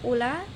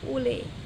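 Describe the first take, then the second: First: The final vowel is a plain open a. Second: The final vowel is fronted toward e.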